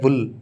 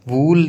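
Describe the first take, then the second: First: The vowel is short. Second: The vowel is long. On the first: The speaker calls it right. "वुल है वुल" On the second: The speaker calls it wrong. "वूल नहीं है"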